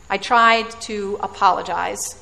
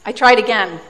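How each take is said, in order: First: "tried" leaned on with a rising lift; stress on tried. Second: "tried" said louder with a falling tune; stress on tried. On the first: Preacher admitting a failed apology, stress on "tried". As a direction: lean on "tried" so it sounds doubtful. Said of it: "The operative word is tried". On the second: Preacher retelling a second apology, weight on "tried". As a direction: land hard on "tried", falling. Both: Real, not acted.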